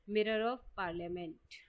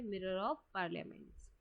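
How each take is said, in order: First: Slow answer. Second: Repeated answer to memorise. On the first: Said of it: "तो इसका answer है". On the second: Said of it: "और newspaper का नाम भी क्या है?". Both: Shown as a demonstration.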